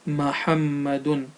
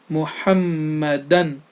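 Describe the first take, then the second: First: The word ends with the sound un. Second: The word ends with the sound an. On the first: The speaker calls it wrong. "and not Muhammadun" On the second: The speaker calls it right. "So it's Muhammadan"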